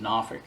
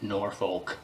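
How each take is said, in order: First: The name is said the way locals say it. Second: The name is said the way outsiders say it. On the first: The speaker is from the city. The speaker calls it right. "if you're from Norfolk, you pronounce it Norfolk" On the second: The speaker is not from the city. The speaker calls it wrong. "It's not Norfolk. Anyone who's not from Norfolk pronounces it Norfolk"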